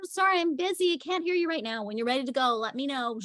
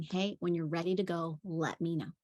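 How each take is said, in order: First: Much higher, light, breezy brush-off; breezy sing-song. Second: Soft, even, unbothered repeat; calm broken record. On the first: Nanny brushes off the yelling boy in a high sing-song. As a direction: sing it high and airy, unbothered. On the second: Nanny calmly repeats to the yelling boy, soft and even. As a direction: say it softly and evenly. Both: Retold or imitated.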